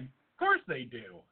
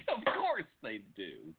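First: Mock proud. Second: Echoing mockingly. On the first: Real, not acted.

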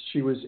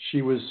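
No difference in how they are said.

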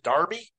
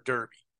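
First: Derby said as DAR-bee; derby with an open AR vowel; British pronunciation. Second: Said in the usual way. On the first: Shown as a demonstration. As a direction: make derby rhyme with Barbie. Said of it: "Maybe it's derby there". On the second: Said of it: "I think we say derby here".

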